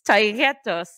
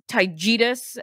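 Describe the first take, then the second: First: The name ends with an 'os' sound. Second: The name ends with an 'us' sound. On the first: The speaker calls it right. "It's Taygetos" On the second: The speaker calls it wrong. "He says Taygetus"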